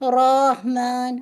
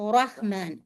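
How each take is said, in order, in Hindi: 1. r को कई टैप के साथ रोल किया जाता है। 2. r को एक टैप से मारा जाता है। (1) "जैसे बहुत से लोग पढ़ते हैं रहमान, र- ऐसे करके आवाज नहीं" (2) "एक दफा बस रा को हिट करना है"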